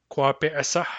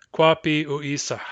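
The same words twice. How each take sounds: First: "Kwa pe esah" run together as a single word; "Kwa pe esah" with the ending fused onto the stem; said as one word. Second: "Kwa pi u isah" split into two words; "Kwa pi", then "u isah" as its own word. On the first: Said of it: "say it as one word". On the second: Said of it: "or as two words". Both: Shown as a demonstration.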